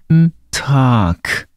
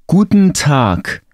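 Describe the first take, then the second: First: The phrase is said slowly. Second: The phrase is said at normal speed. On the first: "przeczytam to dla ciebie wolniej" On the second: "ja to dla ciebie przeczytam"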